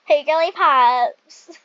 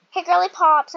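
First: Louder, slow greeting through a laugh. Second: Said in the usual way. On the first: Shown as a demonstration. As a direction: call out Hey, Girly Pops while laughing. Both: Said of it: "I'm gonna say that".

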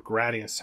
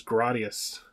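First: Gradius said as GRAY-dee-us; Gradius, first vowel as in "grade"; alternative pronunciation. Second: Gradius said as GRAH-dee-us; Gradius, first vowel as in "father"; first pronunciation variant. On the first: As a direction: say Gradius with a long "ay" in the first syllable. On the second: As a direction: say Gradius with an open "ah" in the first syllable. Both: Shown as a demonstration. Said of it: "however you wanna pronounce that".

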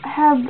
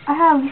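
The two takes are said the same way.

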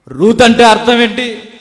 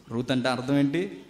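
First: Ruth అంటే అర్థం ఏంటి asked higher and louder; loud repeated question. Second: Said in the usual way. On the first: Shown as a demonstration. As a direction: fire the question at the crowd.

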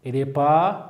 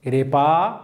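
Both takes have the same delivery.

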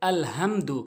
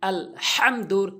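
First: আল হামদু with a plain, light h; wrong light ha. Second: আল হামদুর with হা squeezed from mid-throat; correct throaty ha. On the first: Teacher showing the mistake that spoils prayer, plain-h হামদু. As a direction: say হামদু without any throat friction. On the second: Teacher citing the Fatiha example correctly, throaty হামদুর. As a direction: give the হা in হামদুর a strong throat friction. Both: Shown as a demonstration. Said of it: "জায়গায় বলে".

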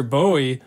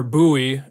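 First: "[name]" said as BOH-ee; pronounced BOH-ee. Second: "[name]" said as BOO-ee; pronounced BOO-ee. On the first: Unsure of the trumpeter's name, "[name]" said BOH-ee. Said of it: "I'm not sure how you say his name". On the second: Offering the other way to say it, "[name]" said BOO-ee. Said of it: "he pronounced it [name]". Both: Shown as a demonstration.

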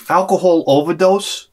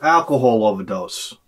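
First: "overdose" rises in disbelief; incredulous question. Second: Said in the usual way. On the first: Real, not acted. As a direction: echo it back like you can't believe it. Incredulous echo of the call.

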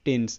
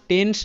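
First: টেন্স ending in a clean s, "tens"; correct s ending. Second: টেন্স ending in sh, "tensh"; wrong sh ending. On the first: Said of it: "টেন্স এরকম". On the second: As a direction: say টেন্স as "tensh", with a hushing final sound. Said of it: "টেন্স নয় কিন্তু". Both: Shown as a demonstration.

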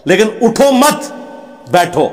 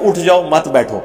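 First: "اٹھو مت" slow and pitched up, a pause, then "بیٹھو"; phrase it as "اٹھو مت / بیٹھو" with a clear break; "اٹھو مت" set apart high and slow before a break, then "بیٹھو"; pause after مت. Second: "اٹھ جاؤ" then a break, "مت بیٹھو" as its own phrase; pause after جاؤ. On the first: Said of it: "اٹھو کو علیحدہ کر دیں". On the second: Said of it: "Urdu میں بھی آپ اٹھو مت بیٹھو". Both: Shown as a demonstration.

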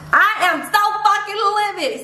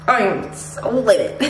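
First: High-pitched exasperated fury; livid outburst. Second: Contained anger, leaning on "so"; livid. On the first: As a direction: let the anger shoot up high. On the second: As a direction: seethe it out without raising the pitch. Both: Real, not acted.

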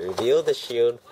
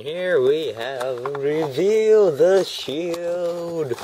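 First: Said in the usual way. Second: High, loud, slowly drawn-out reveal; grand announcer. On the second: Pretend. Vlogger presenting a toy line to viewers, grand announcement. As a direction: stretch each word into a big fanfare.

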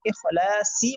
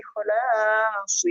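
First: إخلاصي with an added final i sound; wrong ending. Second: إخلاص ending cleanly on s, drawn out; correct ending. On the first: Teacher showing wrong ending إخلاصي with added i. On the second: Teacher showing correct إخلاص ending on s. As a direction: say إخلاص stopping on the s. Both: Shown as a demonstration. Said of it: "إخلاصي বলা যাবে না".

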